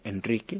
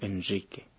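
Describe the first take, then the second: First: The R is a plain, non-fricative R. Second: The R is a voiced fricative sound.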